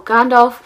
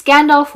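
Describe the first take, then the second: First: "Gandalf" with an open AH in the first syllable; own pronunciation of Gandalf. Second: "Gandalf" with a short flat A, as in "gander"; alternative pronunciation of Gandalf. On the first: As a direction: say "Gandalf" as GAHN-dalf. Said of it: "I pronounce him Gandalf". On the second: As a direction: try "Gandalf" as GAN-dalf. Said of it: "I don't know if it's Gandalf". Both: Shown as a demonstration.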